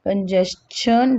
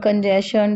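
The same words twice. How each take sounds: First: The ending is pronounced with a 'ch' sound. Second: The ending is pronounced with a 'sh' sound. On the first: The speaker calls it right. "It is चन, not शन" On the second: The speaker calls it wrong. "हम कंजेशन, डाइजेशन, सजेशन नहीं बोलते हैं"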